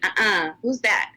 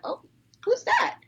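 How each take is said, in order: First: It sounds catty and dismissive. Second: It sounds warm and welcoming.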